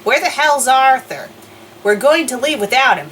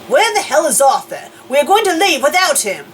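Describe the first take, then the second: First: It is said in the speaker's normal accent. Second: It is said in an English accent.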